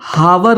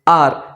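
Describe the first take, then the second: First: The word begins with an audible h sound. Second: The word is one syllable like the letter R. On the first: The speaker calls it wrong. "ये हावर नहीं होता है" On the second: The speaker calls it right. "बेहतर pronunciation करना चाहते हैं तो उसे आर बोलिए"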